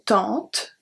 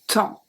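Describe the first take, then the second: First: The word ends with a pronounced t sound. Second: The word ends on a nasal vowel, no t. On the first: The speaker calls it wrong. "So I don't say tente" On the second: The speaker calls it right. "the T is silent"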